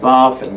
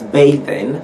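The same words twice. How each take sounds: First: It is said like bath plus -ing. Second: It is said like bathe plus -ing. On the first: It treats bath as a verb. The speaker calls it wrong. "and not bathing" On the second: It is the verb form of bathe. The speaker calls it right. "you have to pronounce that one as bathing"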